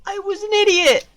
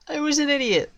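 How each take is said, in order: First: High, fast, loud cry of self-blame; anguished outburst. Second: High-pitched self-reproach at normal volume; high lament. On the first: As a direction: shout it in exasperation, pitch leaping up. Outburst at own blunder. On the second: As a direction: wail it in regret without shouting. Repeats self-blame less loudly. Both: Real, not acted.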